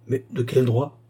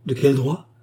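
First: Said in the usual way. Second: Mildly indignant retort; angry outcry. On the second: A narrator's reading. Baccarat stamping her foot at her sister, angry outcry. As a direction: throw the question back with some anger. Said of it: "s'écria la pécheresse en frappant du pied avec colère".

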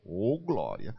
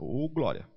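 First: Said in the usual way. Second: A slightly quicker praise phrase, imitated; quicker repeat. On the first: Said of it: "Fala glória". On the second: Newcomer obeying the call to speak faster, slightly quicker. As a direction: say it a touch faster, as instructed. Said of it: "fala mais rápido".

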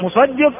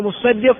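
First: مصدق with a single short ص, musaddiq; light sad. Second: مصدق with a doubled, held ص, mussaddiq; doubled sad. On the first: Teacher giving the reading that means the collector, مصدق with single ص. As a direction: keep the ص of مصدق undoubled, as musaddiq. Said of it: "ومنهم من ضبطه بتخفيف الصاد". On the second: Teacher giving the reading that means the owner, مصدق with doubled ص. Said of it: "فالأكثر على أنه بالتشديد". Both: Shown as a demonstration.

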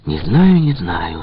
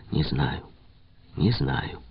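First: Louder. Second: A soft, dropping не знаю, не знаю; quietly. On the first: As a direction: raise the voice on не знаю, не знаю. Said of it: "сказал он громче". (громче, с напором) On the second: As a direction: say не знаю, не знаю under the breath. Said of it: "тихо сказал он". (тихо, почти про себя) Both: A narrator's reading.

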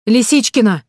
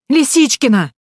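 First: Loud, higher call across the park; shouting a name. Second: Much higher, louder desperate cry of Лисичкина; desperate shout. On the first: Heroine shouts for the missing girl in the park. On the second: Heroine calls the lost girl louder in panic. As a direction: yell Лисичкина with rising panic. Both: A narrator's reading. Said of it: "закричала я".

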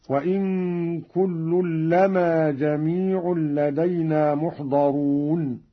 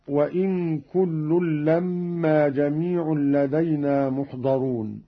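First: لما said lama with a single, undoubled meem, slow chant; light meem in لما. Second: Said in the usual way. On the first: Shown as a demonstration. Reciter demonstrating for students, لما with a light single meem. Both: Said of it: "قرأ قالون بتخفيف الميم من لما هكذا".

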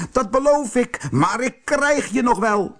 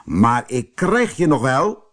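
First: Very high-pitched angry threat; furious shriek. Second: Mildly raised, threatening voice; called-out threat. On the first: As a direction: screech it high as an enraged wizard. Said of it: "gilde de tovenaar woedend". (woedend, hoog gegild dreigement) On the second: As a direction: call out a restrained threat. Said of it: "riep de vreemdeling". (ingehouden roepend dreigement) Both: A narrator's reading.

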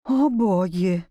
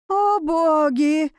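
First: Low, slow, sinking dismay; dismayed repeat. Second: High, drawn-out cry of alarm; exclaimed in shock. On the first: Tutor looking at the beast's teeth, low dismayed repeat. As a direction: let it sink lower and slower. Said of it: "повторил он, опустив взгляд". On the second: Tutor facing the werewolf, a drawn-out exclamation. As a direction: stretch it out, aghast and higher. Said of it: "воскликнул гувернёр". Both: A narrator's reading.

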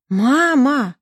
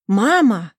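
First: Louder, higher cry of mama; alarmed daughter shouting for her mother, louder and higher. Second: Calling out for mom, a bit louder; anxious call of mama. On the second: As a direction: call down the phone to her mother. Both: Acted. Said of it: "закричала Лиза".

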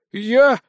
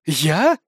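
First: Overdone mock surprise; fake surprise. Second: Mock surprise. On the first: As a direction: act surprised, badly. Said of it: "ненатурально удивился Винсент". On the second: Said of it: "полностью имитируя ненатуральность удивления".

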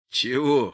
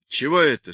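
First: Mild mocking echo; gloomy mimicking. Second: Said in the usual way. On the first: A narrator's reading. Boris mimics the question about the bundle, gloomy mockery. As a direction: throw the question back mockingly. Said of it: "хмуро передразнил Борис". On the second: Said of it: "спросил он".

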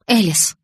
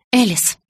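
First: Mildly whining call to a friend; a touch of pleading complaint; loud whine. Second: Higher, mildly weary name call; a touch of exasperation; sighed. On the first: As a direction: whine the name in understated protest. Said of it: "громко заскулила я". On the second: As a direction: call the name with resigned impatience. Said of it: "вздохнула я". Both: A narrator's reading.

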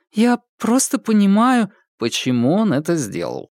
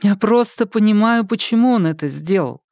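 First: Lightly mocking echo of Polina, я raised high; ironic echo. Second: Put-on lightly raised young woman's voice, sincere; Polina, earnest. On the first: Ilyushin echoing Polina's excuse back at her, lightly mocking. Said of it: "закончил Илюшин". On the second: Polina explaining her ex's choice to Babkin, in a sincere raised voice. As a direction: stress on просто, plainly earnest.

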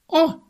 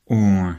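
First: A sudden shrill high squeal of surprise; О! shot up into a piercing squeal. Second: Said in the usual way. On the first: Shown as a demonstration. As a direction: squeal the О! way up high like a startled girl. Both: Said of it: "Она же взвизгнула".

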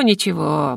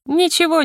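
First: «ничего» dropped low with a settling fall; a satisfied low «ничего». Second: A teasing high «Ничего»; high gloating. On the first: Heroine gloating over the rector, low satisfied fall. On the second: Heroine gloating over the rector, high-pitched teasing. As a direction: jump way up on «Ничего», sing-song high. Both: Retold or imitated.

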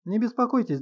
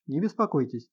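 First: Higher, brisk and lively; bright quick reassurance; Не беспокойтесь lifted high and lively. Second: Said in the usual way. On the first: A narrator's reading. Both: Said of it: "живо сказал".

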